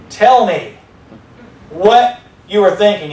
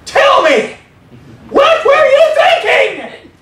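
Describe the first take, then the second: First: It is said in a somewhat raised voice. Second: It is said in a loud shriek.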